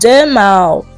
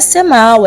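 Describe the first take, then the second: First: The name begins with a j sound. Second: The name begins with an s sound. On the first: The speaker calls it right. "é Jamal" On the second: The speaker calls it wrong. "Não é Semal"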